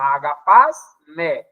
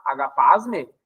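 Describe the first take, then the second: First: Agapasme drawn out very slowly, syllable by syllable; slow spelled-out word. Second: Said in the usual way. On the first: Shown as a demonstration. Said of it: "Agapasme (spelled out letter by letter)". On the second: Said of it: "Agapasme, isso aqui é o ponto".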